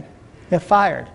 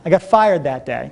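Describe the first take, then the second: First: Slow, heavy stress on fired; slow emphatic repeat. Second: Said in the usual way. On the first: Shown as a demonstration. Speaker to seminar audience, repeating his firing: slow, stressed "fired". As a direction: let "fired" land slowly and heavily.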